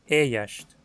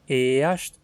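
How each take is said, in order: First: The first vowel glides like a diphthong. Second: The first vowel is a single plain vowel. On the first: "você acaba dizendo Eyast. O E vira Ei" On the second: "em vez de dizer Eyast"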